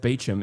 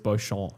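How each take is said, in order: First: The name is said the English way, like Beecham. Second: The name is said the French way, like bo-shon. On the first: "most commonly pronounced Beecham in English" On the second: "it lists the French pronunciation. It says Beauchamp"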